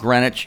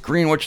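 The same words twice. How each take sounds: First: The first syllable sounds like 'gren'. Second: The first syllable sounds like 'green'. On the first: This is how the English original is said. The speaker calls it wrong. "not Greenwich, even though it's named after Greenwich" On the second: This is how the town in Ohio says it. The speaker calls it right. "It's Greenwich, just like Green Acres"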